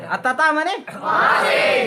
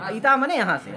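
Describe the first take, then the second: First: Chanted, slow, high, loud call of तता मने वहाँ से; chanted, stretch out तता मने वहाँ से for the class; drawn-out chant. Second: Said in the usual way. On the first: Shown as a demonstration. Chanted, teacher drilling Sanskrit words for the class, sing-song call.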